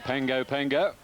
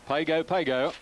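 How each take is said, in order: First: The middle consonant is an ng sound. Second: The middle consonant is a plain g sound. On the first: "or some will say" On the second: "This is the"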